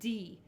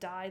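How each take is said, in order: First: The vowel is a long 'ee' sound. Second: The vowel is an 'eye' sound. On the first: The speaker calls it right. "the E is the sound you're going to make" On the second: The speaker calls it wrong. "It's not die like as in English"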